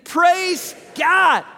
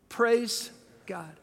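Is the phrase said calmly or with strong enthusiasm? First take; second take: enthusiastically; calmly. First: It is said loudly with strong enthusiasm. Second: It is said in a plain, calm way. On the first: "Let's say it like we mean it" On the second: "Say that with me"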